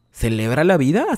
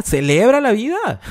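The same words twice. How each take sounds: First: Said in the usual way. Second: Más agudo y más fuerte, entusiasmo de burla; ánimo exagerado. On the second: Retold or imitated. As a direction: como quien anima con falsa alegría. (falsa alegría, aguda y fuerte) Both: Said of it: "Y yo te digo".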